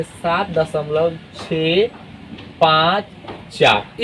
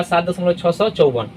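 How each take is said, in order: First: Slow, pause before पाँच and before चार; teacher reading out each digit separately; digits with gaps. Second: छः सौ चौवन said as one whole number; wrong reading. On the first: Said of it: "इस तरीके से break करके आपको पढ़ना है". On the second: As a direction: run छः सौ चौवन together as six hundred fifty-four. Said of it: "ये गलत हो जाएगा". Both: Shown as a demonstration.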